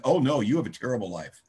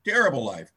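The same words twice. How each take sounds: First: A hint of teasing pity; mock sympathy. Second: Repeating terrible life through a laugh; the sponsor cracking up at his own joke. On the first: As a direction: tease him about his terrible life, lightly. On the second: Retold or imitated. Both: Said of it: "He used to say things like".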